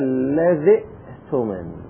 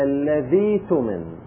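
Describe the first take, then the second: First: The hamza is pronounced as a glottal stop. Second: The hamza becomes a long i vowel. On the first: "أصلها الذي تمن" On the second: "قلبنا الهمزة إلى ياء"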